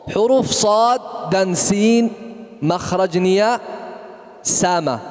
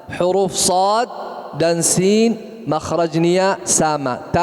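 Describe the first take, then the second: Both takes have the same delivery.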